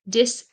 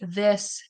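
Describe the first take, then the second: First: The word begins with a d sound. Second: The word begins with a th sound. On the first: The speaker calls it wrong. "when they are unable to say the sound" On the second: The speaker calls it right. "they'll say it correctly"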